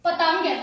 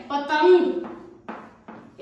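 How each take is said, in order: First: Said in the usual way. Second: पतंग stretched very slowly, nasal ं held long; teacher stretching पतंग for pupils; drawn-out nasal. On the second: Shown as a demonstration. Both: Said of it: "अब जैसे".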